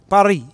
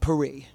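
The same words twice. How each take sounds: First: It is said with a French pronunciation. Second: It is said with an English pronunciation. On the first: The speaker calls it right. "because you have to say Paris" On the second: The speaker calls it wrong. "not Paris"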